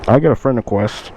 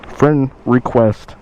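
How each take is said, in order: First: Said in the usual way. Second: Friend request, drawn out slowly; slow repeat. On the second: Shown as a demonstration. To viewers about the bike buyer, savoring it slowly. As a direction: let friend request hang, each word slow.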